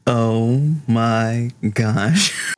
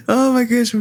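First: Slow, stretched-out oh my gosh with a rising gosh; drawn-out oh my gosh. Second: Gasping oh my gosh. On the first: Player to the table, slow drawn-out amazement. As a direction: let it hang, slowly amazed. Reaction to wrestling reference. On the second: Player to the table, gasping and delighted. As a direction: catch your breath in delight. Realising the wrestling reference. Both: Real, not acted.

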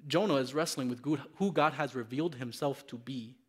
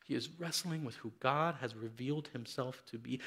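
First: Said in the usual way. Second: Hushed repeat. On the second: Shown as a demonstration. Preacher repeating his point softly to the congregation. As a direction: let it sink in, almost under the breath.

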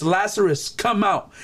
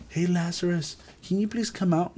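First: A firm call, lightly voiced; crying out. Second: Soft, timid call, not a cry; meek polite call. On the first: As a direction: call him out with authority, without real shouting. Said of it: "he cried out". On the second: Shown as a demonstration. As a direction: ask politely and quietly, as if unsure. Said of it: "Look, he didn't do it".

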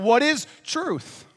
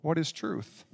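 First: High, slow, drawn-out cry of a question; Pilate crying out. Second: A soft, dropped repeat; quiet echo. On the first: Pilate crying out to the world in a high, slow voice. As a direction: hold the question up high and let it hang. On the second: Pilate repeating his question quietly to himself. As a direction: let the question sink into a near murmur. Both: Retold or imitated. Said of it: "so he cries out".

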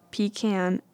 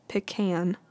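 First: "pecan" said PEE-can, as in tin can; long ee in "pecan", then can; unpopular pronunciation. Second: "pecan" said pih-CAN, as in tin can; short first vowel in "pecan", then can; unpopular pronunciation. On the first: Vlogger naming a losing option, pecan as PEE-can. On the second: Vlogger naming a losing option, pecan as pih-CAN. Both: Shown as a demonstration. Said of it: "the other two".

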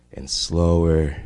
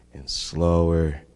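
The two takes are said the same way.

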